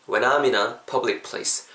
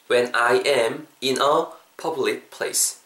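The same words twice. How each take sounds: First: "when I'm in a" linked as one smooth unit; natural linking. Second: Slow, separated words, AM kept full; careful word by word. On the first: Teacher showing learners the natural version, words linked. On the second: Teacher building the sentence piece by piece, slow and separated. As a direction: say each word separately, "I am" uncontracted. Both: Shown as a demonstration. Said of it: "자연스럽게".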